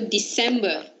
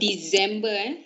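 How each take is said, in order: First: The middle C sounds like an S. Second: The middle C is not an S sound. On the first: The speaker calls it right. "C in the middle too. Sounds S" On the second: The speaker calls it wrong. "It's not December"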